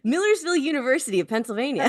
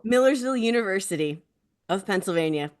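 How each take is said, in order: First: It is said with lively, enthusiastic energy. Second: It is said plainly, without much enthusiasm. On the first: The speaker calls it right. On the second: The speaker calls it wrong.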